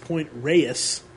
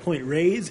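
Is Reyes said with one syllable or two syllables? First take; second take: two syllables; one syllable. First: Reyes is said as two syllables. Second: Reyes is said as one syllable. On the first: The speaker calls it right. "two syllables" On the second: The speaker calls it wrong. "We said Point Reyes"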